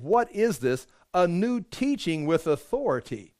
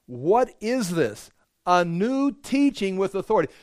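First: Said in the usual way. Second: Amazed crowd. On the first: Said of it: "What do they say?". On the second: Acted. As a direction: let the awe stretch every word out. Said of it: "watch this".

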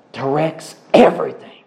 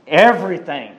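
First: Everything said firmly with a falling close; stress on everything. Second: Said in the usual way. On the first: Shown as a demonstration. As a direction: lean hard on the word everything. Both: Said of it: "I'll say that with emphasis".

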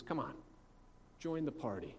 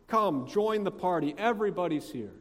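First: Softly retold coaxing; gentle pleading. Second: Higher, louder acted entreaty; insistent, pleading invitation. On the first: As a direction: coax him quietly, without pushing. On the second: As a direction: urge him eagerly to come inside. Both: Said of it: "He pleads with him".

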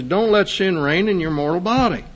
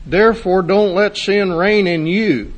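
First: "mortal body" set apart as the key phrase; stress on "mortal body". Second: "you" set out as the key word, in a raised preaching voice; stress on "you". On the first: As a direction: preach it higher, marking out "mortal body" against the rest. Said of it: "He separates you from your mortal body". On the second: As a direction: preach it higher, landing firmly on "you". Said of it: "Paul does not say". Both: Shown as a demonstration.

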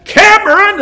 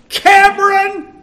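First: Higher and louder call, rising at the end; louder shout. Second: High, loud call across the yard; mother's shout. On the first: Mother calling her son a second time, louder shout. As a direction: call him again, more insistent. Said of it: "And it got louder". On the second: Mother calling her son in from the veranda, loud shout. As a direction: yell the boy's name from the veranda. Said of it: "veranda and shout". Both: Retold or imitated.

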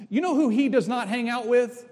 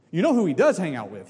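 First: "does not" stressed, rising question. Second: Quick, lower "You know who he does hang out with" with "does" stressed. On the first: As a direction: bear down on "not" in "does not hang out". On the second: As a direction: fall through "does hang out with" as a knowing statement. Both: Shown as a demonstration.

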